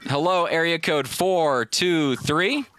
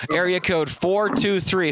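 First: Very slow, stretched hello to a silent line; host coaxing a silent caller on the line; calling out. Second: Slow, drawn-out call for the caller; slowly calling the next caller's area code. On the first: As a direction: drag it out, waiting for an answer. Caller not answering, host calls again. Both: Real, not acted.

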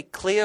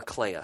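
First: Clea said as KLEE-uh; first pronunciation option. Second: Clea said as KLAY-uh; alternative pronunciation. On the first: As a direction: offer Clea with an "ee" vowel. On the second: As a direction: offer Clea with an "ay" vowel. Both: Shown as a demonstration. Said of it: "How do you pronounce it?".

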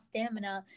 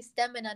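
First: "stamina" said STAM-in-a, broader first vowel; rejected American pronunciation. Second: "stamina" said STEM-in-a; British pronunciation. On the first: Rejecting what the others say, American pronunciation. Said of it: "how to say the British words". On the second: Arguing for the British word, British pronunciation. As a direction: say "stamina" with a short e-like first vowel. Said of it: "not stamina". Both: Shown as a demonstration.

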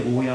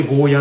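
First: ゴーヤ with a long final "yaa"; opposite pronunciation. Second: ゴーヤ with a short final vowel; mainland pronunciation. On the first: Streamer wondering about the other form, long-ended ゴーヤ. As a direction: stretch the last vowel of ゴーヤ. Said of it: "逆になんで". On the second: Streamer puzzling over the mainland word, short-ended ゴーヤ. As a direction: end ゴーヤ on a short, unstretched "ya". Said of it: "内地の人ってゴーヤと表記しますよね". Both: Shown as a demonstration.

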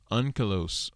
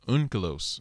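First: Said in the usual way. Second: "unkelos" opening on an "oon" sound, as if spelled U-N-K; U-N-K pronunciation. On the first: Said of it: "So you pronounce it unkelos". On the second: Shown as a demonstration. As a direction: say "unkelos" with a U, not an O, at the start. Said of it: "So you pronounce it unkelos, like".

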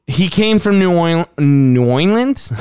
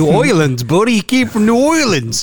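First: Cartoon character voice. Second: High, goofy cartoon voice; cartoon character voice. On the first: Real, not acted. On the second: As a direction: mimic an old cartoon character. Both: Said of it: "he sounded like a cartoon character".

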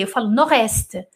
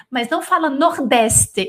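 First: "nordeste" said with the D dropped, nor-este; silent D. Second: "nordeste" with the D sounded, as it is written; wrong pronunciation. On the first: A teacher showing the right way to say nord-est, without the D. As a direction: say "nordeste" as if there were no D. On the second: A teacher showing the wrong way to say nord-est. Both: Shown as a demonstration. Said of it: "Eu não pronuncio o D".

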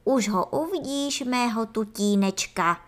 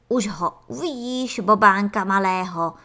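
First: Jubilant. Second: Excited, loud proud father; jubilant. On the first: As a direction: gush over the little darling. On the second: Antlion father cheering to Ferda about his son, excited. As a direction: cheer about the little one. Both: Acted. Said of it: "zajásal mravkolev".

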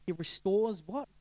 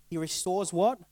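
First: Slow "He restores what?" with stress and a rise on "what"; emphatic question. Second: Said in the usual way. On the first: Shown as a demonstration. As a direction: lean on "what" and let it hang as a slow question. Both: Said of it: "I wanna make an emphasis there".

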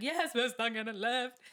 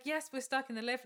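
First: Panicky. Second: Higher voice held carefully level; trying for calm. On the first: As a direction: blurt it out, panic breaking through. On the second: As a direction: keep the panic in while answering. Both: Retold or imitated. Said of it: "I'm trying to be calm".

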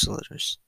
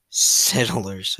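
First: Settlers slightly garbled; stumbled settlers. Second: Settlers restated distinctly; corrected settlers. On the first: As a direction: trip lightly over settlers in passing. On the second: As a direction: say settlers carefully after a stumble. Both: Real, not acted. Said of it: "I can't talk".

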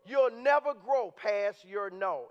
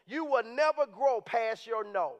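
First: Drawn out, sinking lower; slower still. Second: Slowed, weighing each word; slow emphatic. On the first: Repeating his key line to the church, slower and heavier. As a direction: drag it out for weight. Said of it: "repeated key line slower". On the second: To the congregation, a slow emphatic point. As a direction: let the line land slowly. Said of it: "repeated key line slowly". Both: Shown as a demonstration.

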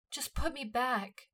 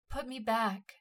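First: Slow, higher pleading; begging. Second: Sobbing plea. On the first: Himmel begging Levi to put her back, slow plea. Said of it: "she begged". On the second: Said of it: "she sobbed". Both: A narrator's reading.

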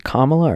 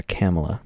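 First: Kamala said with an open "ah", KAH-muh-luh; alternative pronunciation. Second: Kamala said with a short flat "a", KAM-uh-luh; other pronunciation. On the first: Unsure of the candidate's name, trying Kamala as KAH-muh-luh. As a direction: say Kamala as "comma-la". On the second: Unsure of the candidate's name, trying Kamala as KAM-uh-luh. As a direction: say Kamala starting like "camera". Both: Shown as a demonstration. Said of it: "Is it Kamala or Kamala?".

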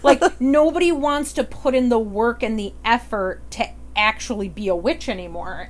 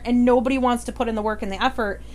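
First: Lightly played grumbling boomer; a hint of an out-of-touch boomer complaining. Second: Said in the usual way. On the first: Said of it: "I'm gonna get my boomer voice going on here". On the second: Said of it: "boomer voice".

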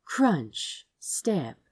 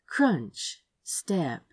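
The two takes are said the same way.

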